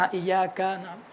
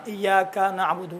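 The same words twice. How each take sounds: First: ایاک with its first vowel leaning toward alif; slowly, ایاک almost aayaak; soft drawn-out ایاک; slow demo, alif-leaning vowel. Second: ایاک with clear i, slowly; drawn out ایاک نعبد; careful ایاک; slow demo. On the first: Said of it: "تھوڑا سا الف کی طرف مائل ہو". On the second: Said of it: "اگر کوئی ایاک نہیں کہا". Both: Shown as a demonstration.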